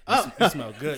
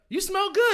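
First: The voice is pitched lower and flatter. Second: The voice is pitched higher and lighter. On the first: It sounds too serious or suggestive. The speaker calls it wrong. "You can't just say" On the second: It sounds like a friendly compliment. The speaker calls it right. "You got to go up"

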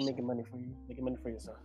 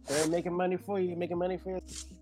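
First: It is said quietly, with little energy. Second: It is said loudly, with strong energy. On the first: The speaker calls it wrong. "I ain't quite catch that" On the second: The speaker calls it right. "Say it with your chest. That's the energy I need from you every day"

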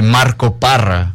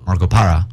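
First: The surname has a Spanish pronunciation with a rolled r. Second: The surname has an anglicized English pronunciation. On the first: "I usually say Marco Parra" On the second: "when I go in for English roles, to say Marco Parra"

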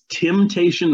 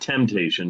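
First: The word is said in a hillbilly accent. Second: The word is said in a standard accent. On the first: This is the title of the spoof song. The speaker calls it right. "It's Temptation" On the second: This is the title of the original song. The speaker calls it wrong. "not Temptation"

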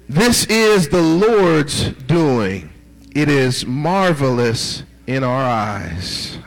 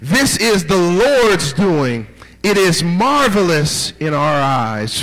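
First: It is read calmly, with ordinary energy. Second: It is read with fiery, heightened energy.

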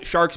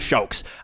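First: The R is pronounced as a normal R. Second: The R is pronounced like a W.

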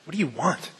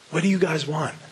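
First: It is said in an annoyed tone. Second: It is said in a caring, sincere tone.

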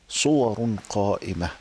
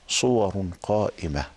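No difference in how they are said.

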